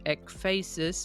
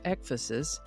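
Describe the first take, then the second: First: It is not said like emphasis. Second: It is said like emphasis, starting with ek. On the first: "I would have pronounced it" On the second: "sort of like emphasis, only with an ek instead of an m"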